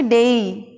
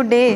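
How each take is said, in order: First: डे drawn out into a glide; gliding diphthong in डे; correct pronunciation. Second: डे with one flat long E; pure single vowel in डे; wrong pronunciation. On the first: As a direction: say डे as "day-ee". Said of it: "हमें बोलना चाहिए". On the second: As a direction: say डे without any glide. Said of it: "गलत बोलते हैं अपन". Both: Shown as a demonstration.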